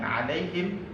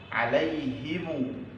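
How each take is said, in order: First: The word ends on a bare, unvoweled m. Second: The final m is followed by a u vowel. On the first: "Boleh dibaca sukun dengan alaihim" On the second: "dibaca dengan silah, yaitu dengan menyambung mim jama' dengan waw dan membacanya dengan dhammah"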